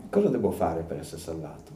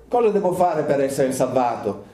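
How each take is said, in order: First: Softer, searching question from the heart; the question rising in an onlooker's heart, softly; inward question. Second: Said in the usual way. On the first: Shown as a demonstration. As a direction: ask it quietly to yourself. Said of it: "la domanda che deve venire nel cuore". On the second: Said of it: "la domanda che deve venire".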